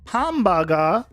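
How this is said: It is said in a Japanese accent. Locals will understand it. The speaker calls it right. "with the basically the translated, you know, even at least accent"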